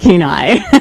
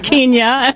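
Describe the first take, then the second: First: The name is said like 'Keen-eye'. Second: The name is said like 'Kenya'. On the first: The speaker calls it right. "it's Ninilchik and Kenai" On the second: The speaker calls it wrong. "you can always tell the new announcers by the way they pronounce the local place names"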